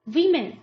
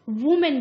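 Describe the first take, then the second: First: The first vowel sounds like 'wim'. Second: The first vowel sounds like 'woo'. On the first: The speaker calls it right. "इसका सही उच्चारण क्या होगा" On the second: The speaker calls it wrong. "जो कि एक गलत उच्चारण है"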